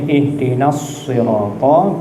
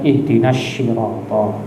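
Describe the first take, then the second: First: The word 'sirata' begins with an emphatic 's' sound. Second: The word 'sirata' begins with an 'sh' sound. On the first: The speaker calls it right. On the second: The speaker calls it wrong. "jangan dibaca shin"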